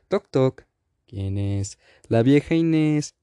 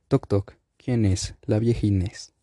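First: It is told in a lively, funny tone. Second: It is told in a flat, unfunny tone.

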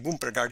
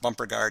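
First: The name is pronounced in an exaggerated way. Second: The name is pronounced in a plain way. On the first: "and sometimes they say" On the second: "sometimes they just say it as"

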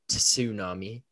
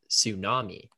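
First: The word begins with a clear T sound. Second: The word begins with a plain S sound. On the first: The speaker calls it wrong. "you don't say tsunami" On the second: The speaker calls it right. "It's tsunami"

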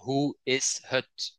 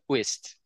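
First: It is said as three separate words. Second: It is run together into one short word. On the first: "if you speak standard Dutch" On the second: "you have something like connected speech, and that word is whist"

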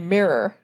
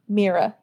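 First: The word is said without a final 'uh' sound. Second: The word is said like 'meer-uh', ending in 'uh'. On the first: "I say mirror" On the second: "You pronounce the word as if it's spelled like M-E-E-R-A"

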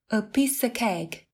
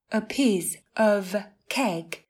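First: The word 'of' is reduced to 'a' without f. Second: The word 'of' is said in full with f.

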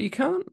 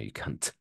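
First: The final T is soft, friendly. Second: The final T is hit hard, hostile.

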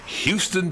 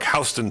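First: Houston is said the usual Texas way. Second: Houston is said the New York way.

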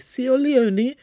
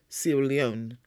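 First: The name has an altered, nonstandard pronunciation. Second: The name has its usual standard pronunciation. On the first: The speaker calls it wrong. "She'd always say Sierra Leone" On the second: The speaker calls it right. "she could never say Sierra Leone"

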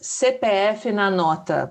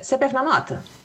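First: The words are said slowly and clearly. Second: The words are said fast and run together. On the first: "But they didn't say it like this" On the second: "they asked me really quick"

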